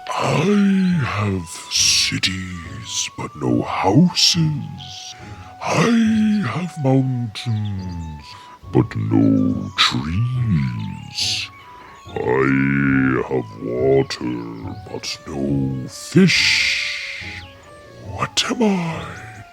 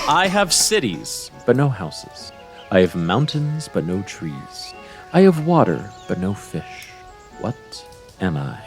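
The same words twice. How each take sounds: First: It is said in a put-on character voice. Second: It is said in the speaker's normal voice.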